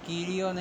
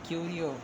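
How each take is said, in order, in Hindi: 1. पहला अक्षर 'kee' की तरह बोला जाता है। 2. पहला अक्षर 'kyoo' की तरह बोला जाता है। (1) "कीरियो नहीं" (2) "क्यू है"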